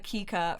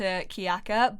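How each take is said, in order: First: The name is said with two syllables. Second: The name is said with three syllables. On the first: The speaker calls it right. "that's how I wanted to pronounce it" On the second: The speaker calls it wrong. "I've been saying Kiyaka's name wrong"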